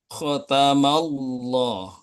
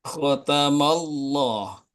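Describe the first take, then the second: The two takes are said the same way.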